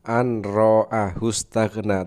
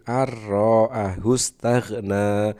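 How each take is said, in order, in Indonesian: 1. Bunyi n dibaca sebelum r. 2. Bunyi n menyatu dengan r setelahnya.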